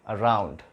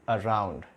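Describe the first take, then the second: Both takes have the same delivery.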